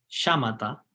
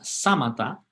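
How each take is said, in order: First: The word begins with an sh sound. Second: The word begins with a plain s sound. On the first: This is the Sanskrit form of the word. "que es como una S H" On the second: This is the Pali form of the word. "En Pali se llaman samatha con S"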